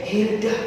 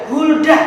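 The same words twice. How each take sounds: First: "Hilda", softly, as the mistaken answer; wrong name Hilda. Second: "Hulda" with a clear u, said firmly; correct name Hulda. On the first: Teacher giving children the wrong name Hilda. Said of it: "bukan Hilda". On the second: Teacher correcting children, "Hulda" said firmly. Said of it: "Namanya adalah Hulda, bukan Hilda". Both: Shown as a demonstration.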